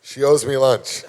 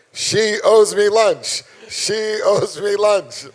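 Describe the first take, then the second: First: Said in the usual way. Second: "She owes me lunch", drawn out, louder and higher; each word of "She owes me lunch" stretched slow and loud; slow emphatic complaint. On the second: Shown as a demonstration.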